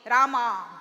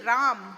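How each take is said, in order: First: The name ends with a final vowel. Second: The name ends on a consonant. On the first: This is how South Indians say it. "you South Indians call, say Rama" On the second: This is how North Indians say it. "It's actually Ram"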